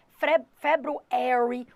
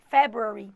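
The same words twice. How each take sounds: First: February in an American accent, FEB-roo-air-ee, slowly; American English February; American pronunciation. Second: February in a British accent, FEB-ree; quick British February; British English February; British pronunciation. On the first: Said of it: "No americano fala". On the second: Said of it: "o britânico fala". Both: Shown as a demonstration.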